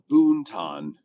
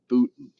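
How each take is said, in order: First: It is said as written, with the n. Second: It is said without the n before t. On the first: This is how the name is written. "It's spelled Boonton" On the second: This is how locals say the name. "we pronounce it Booton because that's what we do"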